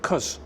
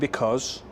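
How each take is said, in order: First: The word is shortened to one syllable. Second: The word is said in full, two syllables. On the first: "I'd say cuz" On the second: "instead of saying because"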